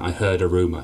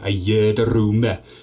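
First: The phrase is said in a neutral accent. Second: The phrase is said in a Welsh accent. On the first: "as in I heard a rumour" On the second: "that's a terrible accent"

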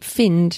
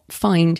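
First: The vowel does not sound like 'fine'. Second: The vowel sounds like 'fine'. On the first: The speaker calls it wrong. "if it's pronouncing it find" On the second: The speaker calls it right. "not find ... so FYNE"

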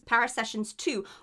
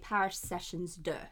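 First: The title is pronounced with English sounds. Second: The title is pronounced with French sounds.

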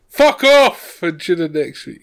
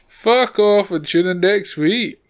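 First: It is said with a lot of energy. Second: It is said with noticeably less energy. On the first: "Once more of energy" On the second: "Take it down a notch"

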